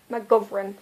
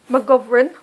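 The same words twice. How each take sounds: First: McGovern said slowly with every syllable, ma-gov-er-ern; saying the name carefully. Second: McGovern fully sounded, ma-gov-er-ern, rising at the end like a question; name with a rise. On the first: Vlogger to viewers, trying the author's name, sounding it out slowly. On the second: Vlogger testing how the author's name sounds, rising questioningly. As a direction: try McGovern again, lifting the last syllable. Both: Shown as a demonstration. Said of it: "It sounds really British".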